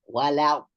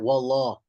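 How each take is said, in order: First: The l sound is kept clear and light. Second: The l sound is made thick and heavy. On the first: The speaker calls it right. "We still have to say wala" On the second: The speaker calls it wrong. "Not wallah"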